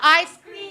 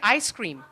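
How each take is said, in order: First: The s starts the second word: I scream. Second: The s ends the first word: ice cream. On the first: It says the speaker screams. The speaker calls it wrong. "Not ice cream. I do scream for ice cream" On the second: It names the frozen dessert. The speaker calls it right. "If I say ice cream"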